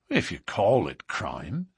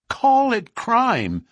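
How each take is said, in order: First: Said in the usual way. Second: High, loud, slow outburst; passionate cry. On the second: A narrator's reading. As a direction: throw the words back, aghast and impassioned. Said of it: "his voice vibrating with passion".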